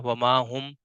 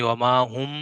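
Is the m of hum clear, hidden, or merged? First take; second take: clear; merged. First: The m is pronounced fully and clearly. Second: The m merges fully into the next sound. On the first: "बिल्कुल इजहार भी नहीं किया, वमा हुम बिमुमिनीन ऐसे भी नहीं पढ़ा, बिल्कुल जाहिर भी नहीं किया मीम को" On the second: "इदगाम भी नहीं किया, यानी कि पहले मीम को दूसरे मीम के साथ दाखिल कर देना"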